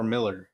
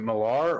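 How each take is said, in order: First: Miller said "MILL-er"; pronunciation option. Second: Millar said "muh-LAR"; pronunciation option. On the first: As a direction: stress the first syllable of Miller. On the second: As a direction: stress the second syllable of Millar. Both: Shown as a demonstration. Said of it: "Is it Millar or Miller?".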